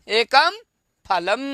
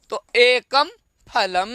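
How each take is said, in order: First: एकम, pause, then फलम, split apart; word by word. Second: Said in the usual way. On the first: Shown as a demonstration. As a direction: break it into single words for the class. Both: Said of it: "ये देखिए एक है ना".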